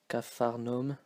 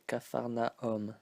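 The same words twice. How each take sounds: First: The a and u merge into one vowel. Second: The a and u are said separately. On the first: The speaker calls it wrong. "we don't say" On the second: The speaker calls it right. "pronounce the A and the U separately"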